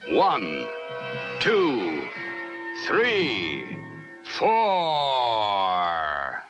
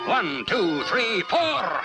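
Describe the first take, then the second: First: The counting is slow and drawn out. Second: The counting is quick and rapid.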